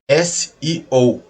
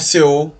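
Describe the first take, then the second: First: It is spelled out as the letters S-E-O. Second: It is spelled out like the letters C-E-O. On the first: The speaker calls it right. "como se lê? S E O" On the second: The speaker calls it wrong. "Não é C O"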